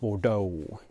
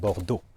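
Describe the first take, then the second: First: The pitch moves up and down like a wave. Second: The pitch stays flat and the word is short. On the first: The speaker calls it wrong. "It's like a little wave" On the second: The speaker calls it right. "We cut it short, we keep it flat"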